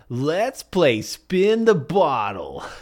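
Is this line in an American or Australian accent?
American. It is said with an American-style accent. The speaker calls it right.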